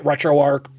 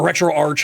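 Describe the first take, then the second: First: "RetroArch" with a hard k ending, like "ark"; alternative pronunciation. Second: "RetroArch" ending in ch, as in "arch"; alternative pronunciation. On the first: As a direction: end "RetroArch" on a k sound. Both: Shown as a demonstration. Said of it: "however you pronounce it".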